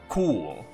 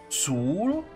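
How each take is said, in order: First: The word begins with a k sound. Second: The word begins with an s sound. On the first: The speaker calls it right. "With a K" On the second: The speaker calls it wrong. "because it's a C"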